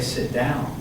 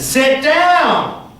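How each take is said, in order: First: It is said at normal, soft volume. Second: It is said loudly, with urgency.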